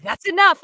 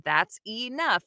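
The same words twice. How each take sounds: First: Loud, high burst, run together; all in one. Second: THAT'S ENOUGH higher, words set apart; separated delivery. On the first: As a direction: fire off THAT'S ENOUGH as one unbroken shout. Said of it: "all in one". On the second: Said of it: "Many different ways of saying it". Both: Shown as a demonstration.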